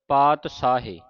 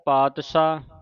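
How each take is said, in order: First: It uses a 'sh' sound and ends in 'e'. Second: It uses a 'sh' sound with no final vowel. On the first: "ਕਈ ਸੰਗਤਾਂ ਤਿੰਨ ਤਰ੍ਹਾਂ ਦਾ ਉਚਾਰਨ ਕਰ ਜਾਂਦੀਆਂ" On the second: "ਕਈ ਸੰਗਤਾਂ ਤਿੰਨ ਤਰ੍ਹਾਂ ਦਾ ਉਚਾਰਨ ਕਰ ਜਾਂਦੀਆਂ"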